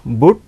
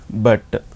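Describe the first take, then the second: First: But with an "oo" vowel, "boot" kept short; German-read but, U as "oo"; German pronunciation. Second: But with a short "uh" vowel; English but, vowel as in cup; English pronunciation. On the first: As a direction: say but the German way, rhyming with put. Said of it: "words in German, we read it as". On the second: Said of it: "in English we see here". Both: Shown as a demonstration.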